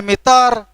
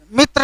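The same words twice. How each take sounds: First: मित्र said "mitar", a vowel before the r; Khortha pronunciation. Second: मित्र said "mitra", t and r joined; standard pronunciation. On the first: Teacher showing how we say it, Khortha "tar" in मित्र. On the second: Teacher citing the form Khortha speakers avoid, standard tr in मित्र. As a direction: keep the tr tight in मित्र. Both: Shown as a demonstration. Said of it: "मित्र नहीं बोलते हैं".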